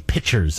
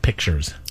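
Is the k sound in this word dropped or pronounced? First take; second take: dropped; pronounced. First: The k sound before the t is dropped. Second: The k sound before the t is pronounced. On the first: The speaker calls it wrong. "One that really bugs me is when people say pictures" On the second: The speaker calls it right. "instead of pictures"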